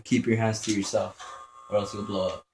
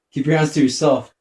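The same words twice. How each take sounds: First: Lightly voiced teacher, said at normal volume; teacher's warning. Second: Loud mock scolding at the enemy. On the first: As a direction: quote the teacher almost plainly. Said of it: "That's why teachers used to tell you". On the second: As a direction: bark it like a cross teacher. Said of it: "Why do you think the teachers used to tell you that?".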